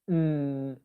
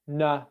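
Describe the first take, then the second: First: The nasal sound ends with no added vowel. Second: The nasal sound ends with a short added vowel. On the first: "If I didn't add that schwa sound onto the end" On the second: "I'm saying the sound and then I'm adding a schwa sound on to the end"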